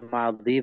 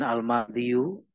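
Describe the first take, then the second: First: The word ends in a plain long i. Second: The word ends with an added -yu. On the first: The speaker calls it right. "Jadi ya bacanya madhi begitu ya" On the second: The speaker calls it wrong. "Bukan al-madhiyu"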